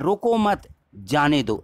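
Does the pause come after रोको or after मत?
after मत. There is a pause right after मत. Do not stop them; let them go. "यानी उसको रोको नहीं जाने दो"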